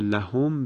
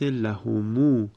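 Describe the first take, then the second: First: The word ends on a silent m sound. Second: The final m is lengthened with a long u.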